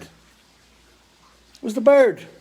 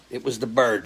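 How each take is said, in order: First: "It was the bird." stretched very slowly, high and loud; "It was the bird." held long and high, louder, for comic effect; drawn-out dramatic repeat. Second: Said in the usual way. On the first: Acted. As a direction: savour every word, slowly, like a punchline.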